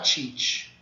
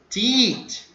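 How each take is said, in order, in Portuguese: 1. A consoante é pronunciada com um chiado forte. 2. A consoante é pronunciada sem chiado. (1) "Não tem chiado, não é para falar teach" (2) "Para falar igual nordestino, sem chiado"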